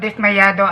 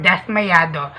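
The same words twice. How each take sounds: First: "dismayado" with a clear i in the first syllable; Tagalog pronunciation. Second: "dasmayado" with an open a in the first syllable; Spanish pronunciation. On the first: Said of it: "In Tagalog". (bigkas Tagalog ng "dismayado") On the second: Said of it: "In Espanyol". (bigkas Espanyol ng "dasmayado") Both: Shown as a demonstration.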